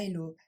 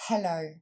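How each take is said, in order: First: Hello said elo with no H; hello, sans le H; French hello without H. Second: Hello, aspirated H, stress on lo; hello, avec le H; English hello with H. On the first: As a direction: drop the H in hello. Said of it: "Donc pas". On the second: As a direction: breathe out the H in hello. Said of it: "bien prononcer le H". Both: Shown as a demonstration.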